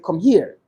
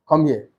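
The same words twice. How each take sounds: First: It is said in a soft, friendly tone. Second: It is said in a firm, commanding tone. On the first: It is a warm invitation. "that's a little friendly" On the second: It is an order. "that sounds more commanding"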